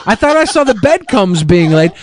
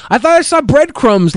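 First: "bedcombs" said as bed-combs, no r; tongue slip: "bedcombs" instead of "breadcrumbs". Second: Said in the usual way. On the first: Real, not acted.

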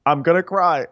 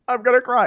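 First: Mock whimper. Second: Squeaky mock wail, pitched way up on "I'm gonna cry". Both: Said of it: "And Sierra's like".

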